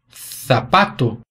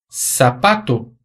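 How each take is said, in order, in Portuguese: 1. O z tem som de th. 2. O z tem som de s.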